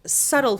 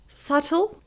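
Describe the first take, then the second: First: "subtle" as SUDDLE, T softened to a tap; American subtle. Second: "subtle" as SUT-ul with a clear T; silent B. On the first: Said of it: "subtle for American". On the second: Teacher reading it out for students, "subtle" with silent B. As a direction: say "subtle" without B, crisp T. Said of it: "we do not pronounce B". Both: Shown as a demonstration.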